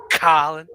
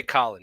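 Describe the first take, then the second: First: Colin with a long, stressed O, rising at the end; teasing the streamer by imitating how he says Colin, stretching the O; O stretched in Colin. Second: Said in the usual way. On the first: Drawn-out O in Colin. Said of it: "You, like, accentuate the O". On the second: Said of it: "You don't just say Colin".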